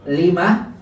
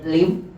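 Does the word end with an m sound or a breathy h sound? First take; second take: breathy h; m sound. First: The word ends with a short vowel and soft h. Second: The word ends abruptly on the m sound. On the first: The speaker calls it right. "Tambahin sukunnya ya" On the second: The speaker calls it wrong. "nggak mungkin kalau antum nggak berikan hasakat"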